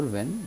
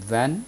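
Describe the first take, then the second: First: وین with a closer e, "ven"; closer variant of وین. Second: وین with an open "a", like "van"; open variant of وین. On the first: Teacher saying both forms are valid, وین said as "ven". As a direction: say وین as "ven", not "van". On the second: Teacher saying both forms are valid, وین said as "van". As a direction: say وین as "væn". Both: Shown as a demonstration. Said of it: "دونوں طور پہ تلفظ ہوتا ہے".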